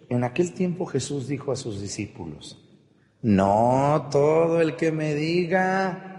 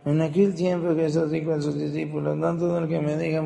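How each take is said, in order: First: It is read carefully with clear pauses. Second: It is read in a hurried rush without pauses.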